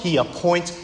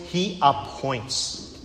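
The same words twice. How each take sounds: First: Said in the usual way. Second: Slowed right down and much softer; fading hushed repeat. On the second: Acted. Preacher lets the repeat fade softly to his congregation. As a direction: let it die away, slow and soft.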